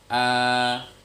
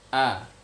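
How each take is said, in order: First: The vowel is held long. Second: The vowel is short. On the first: "jika ada alif memanjang a" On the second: "Sebelumnya a"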